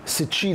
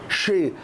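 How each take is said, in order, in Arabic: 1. تُنطق كـ's' متبوعة بـ'ch'. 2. تُنطق بصوت 'sh' واحد. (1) "ما بقولش ما بقولش ستشي ستشي، لا" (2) "والاس اكنها ش"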